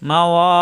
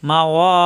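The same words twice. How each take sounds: Both takes have the same delivery.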